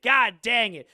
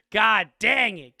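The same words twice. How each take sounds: First: Louder, punchier comic exclamation; hammed-up exasperation, stress on god; mock frustration. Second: Louder, slow exasperated groan of words; hammed-up exasperation; mock frustration. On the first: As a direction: hit god hard in mock dismay. Repeated exclamation. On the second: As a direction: throw the phrase out in comic annoyance. Game master's mock frustration. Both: Real, not acted.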